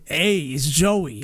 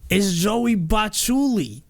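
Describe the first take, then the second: First: Slow, drawn-out New York greeting; New York Joey accent. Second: Higher, slow New York drawl on Bachuli; New York Joey accent. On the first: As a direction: lean into a Jersey-style drawl. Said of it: "going from that to". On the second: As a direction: stretch out the name like a New York tough guy. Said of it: "it's like". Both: Shown as a demonstration.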